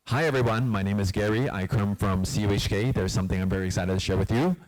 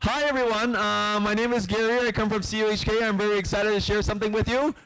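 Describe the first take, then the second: First: It is said in a low-pitched voice. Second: It is said in a high-pitched voice.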